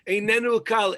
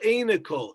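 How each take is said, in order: First: The phrase is said slowly with every syllable. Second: The phrase is said quickly and run together.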